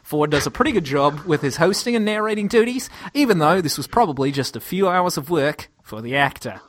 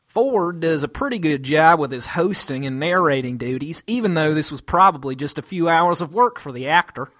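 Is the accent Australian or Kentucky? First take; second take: Australian; Kentucky. First: It is read in an Australian accent. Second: It is read in a Kentucky accent.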